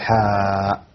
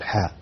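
First: The vowel is drawn out long. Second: The vowel is kept short and natural. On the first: The speaker calls it wrong. "ما تقول حاء" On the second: The speaker calls it right. "قل حاء"

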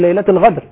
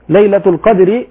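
First: The second word has a gargled gh sound. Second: The second word has a deep q stop sound. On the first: The speaker calls it wrong. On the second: The speaker calls it right.

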